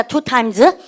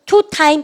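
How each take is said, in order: First: "two times" with a clear final z; "two times", plural ending clearly sounded. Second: "Two time" with no final s; "Two time" ending bare on the m; wrong plural demo. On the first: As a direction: finish "two times" on a voiced s. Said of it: "복수니까 S 쓰셔야 되죠". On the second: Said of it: "왜 two time 바보예요?". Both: Shown as a demonstration.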